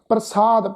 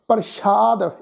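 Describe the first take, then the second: First: The consonant after 'pr' is a plain s sound. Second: The consonant after 'pr' is an sh sound. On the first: The speaker calls it right. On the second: The speaker calls it wrong.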